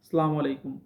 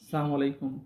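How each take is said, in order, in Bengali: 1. প্রথম শব্দটি সংক্ষেপে "salam" বলা হয়। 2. প্রথম শব্দটি সংক্ষেপে "salam" বলা হয়।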